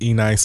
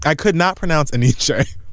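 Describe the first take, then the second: First: The name ends like the word 'nice'. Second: The name does not end like the word 'nice'. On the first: The speaker calls it wrong. "I thought that was E-Nice for the longest motherfucking time" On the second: The speaker calls it right. "I could not pronounce Eniche"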